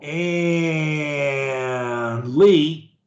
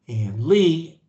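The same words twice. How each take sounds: First: It is drawn out long. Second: It is said very short.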